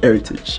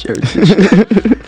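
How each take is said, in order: First: Said in the usual way. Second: High, slow stretched-out Heritage; drawn-out mock call. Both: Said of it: "as everybody else was calling it".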